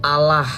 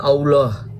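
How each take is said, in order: First: "Allah" said plainly as a-lah; Allah with an open a, Indonesian style; correct pronunciation. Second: "Allah" drawn out slowly as au-loh, rounded; slow, rounded au-loh, Arabic style; wrong pronunciation. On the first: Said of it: "cara bacanya itu Allah". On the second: Contrasting the wrong reading, slow au-loh. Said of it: "bukan Allah". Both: Shown as a demonstration.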